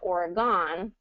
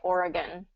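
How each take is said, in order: First: The last syllable keeps a full vowel. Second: The last syllable is a reduced 'gun'. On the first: The speaker is not from the area. The speaker calls it wrong. "they always pronounce it Oregon because that's how it's spelled" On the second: The speaker is native to the area. The speaker calls it right. "everybody says Oregon, gun"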